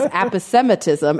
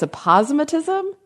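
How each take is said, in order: First: Aposematism said ap-uh-SEM-uh-tism; dictionary pronunciation. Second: Aposematism said uh-POZ-muh-tism, rising; co-host's pronunciation. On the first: Shown as a demonstration. Host giving what every site shows, dictionary pronunciation. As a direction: main stress on SEM in aposematism. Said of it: "everything I'm seeing is". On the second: Retold or imitated. Host querying the co-host's version, stressed second syllable. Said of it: "now you're saying it's".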